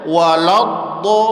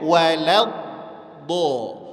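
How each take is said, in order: First: The first two consonants sound thick and heavy. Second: The first two consonants sound thin and light. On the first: The speaker calls it wrong. "Kesalahannya dibaca waladdo" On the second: The speaker calls it right. "Wawnya tipis, lamnya tipis, do-nya tebal"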